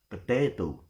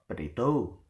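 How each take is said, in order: First: The stress is on the middle syllable. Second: The stress is not on the middle syllable. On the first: The speaker calls it right. "the stress is in the penultimate" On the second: The speaker calls it wrong. "we will never pronounce it it's potato or potato"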